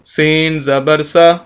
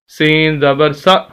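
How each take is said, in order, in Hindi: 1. आखिरी अक्षर आराम से बोला जाता है, बिना झटके के। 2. आखिरी अक्षर एक झटके के साथ खत्म होता है। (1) "आराम से बिल्कुल झटका दिए बगैर" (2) "झटका देते हैं, ऐसे नहीं"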